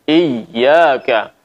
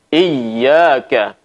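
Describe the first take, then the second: Both takes have the same delivery.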